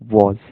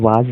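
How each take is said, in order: First: The vowel is a rounded 'aw'. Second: The vowel is an open, unrounded 'ah'. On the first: The speaker calls it right. "वॉज वॉज" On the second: The speaker calls it wrong. "इसे वाज नहीं"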